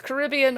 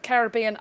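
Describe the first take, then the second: First: Caribbean stressed on RIB, ca-RIB-ee-an; one pronunciation option. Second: Caribbean stressed on BE, ca-rib-BE-an; alternative pronunciation. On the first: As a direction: say Caribbean with the weight on the second syllable. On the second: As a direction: say Caribbean with the weight on the third syllable. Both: Shown as a demonstration. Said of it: "I don't know how we'd pronounce that".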